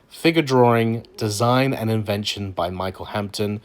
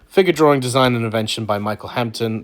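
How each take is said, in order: First: It is said slowly. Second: It is said at normal speed.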